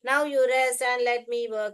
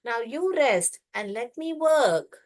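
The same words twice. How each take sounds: First: It is read straight through without a pause. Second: There is a pause after the word rest. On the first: The speaker calls it wrong. "ऐसा नहीं पढ़ने का।" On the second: The speaker calls it right. "यहाँ कमा है तो pause करना है।"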